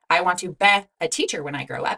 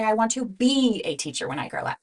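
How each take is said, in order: First: The word be has a short E vowel. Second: The word be has a long E vowel. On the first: The speaker calls it wrong. "we don't say" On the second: The speaker calls it right. "No, we say"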